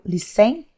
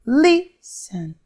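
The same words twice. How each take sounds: First: Lis-TEN, rising on the second syllable; wrong-syllable stress. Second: LIS-ten, high first syllable then falling; stress on first syllable. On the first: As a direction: misplace the stress of listen onto TEN. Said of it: "Percebeu que não é o listen". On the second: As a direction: split listen, leaning hard on LIS. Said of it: "Mais forte". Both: Shown as a demonstration.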